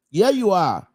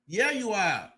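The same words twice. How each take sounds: First: Louder repeat. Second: Softer repeat. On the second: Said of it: "But here you are". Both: Real, not acted.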